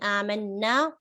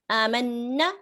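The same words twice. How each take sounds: First: The final vowel is held long. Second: The final vowel is cut short. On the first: We believed. "we believed" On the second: Those ladies believed. "without prolonging the na"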